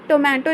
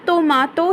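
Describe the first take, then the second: First: The middle vowel is an 'ay' sound. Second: The middle vowel is an open 'ah' sound. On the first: The speaker calls it wrong. "टोमेटो नहीं पढ़ेंगे" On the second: The speaker calls it right. "Japanese में उसे हम टोमाटो ही पढ़ेंगे"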